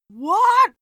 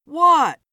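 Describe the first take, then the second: First: High, loud shriek of shock; shocked, high-pitched yell; screamed. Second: Loud, raised, jumpy question; nervous, louder one-word question. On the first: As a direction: scream it in disbelief. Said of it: "Philip screamed". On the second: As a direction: blurt it out nervously. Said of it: "Philip asked nervously". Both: A narrator's reading.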